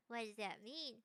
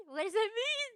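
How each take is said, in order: First: Low, soft questioning; quiet repeat. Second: High-pitched baffled demand; startled question. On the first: Asking chat about the message, quiet repeat. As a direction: drop low and soft to ask. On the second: Reacting to a chat message, startled question. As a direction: ask it high and taken aback. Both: Real, not acted.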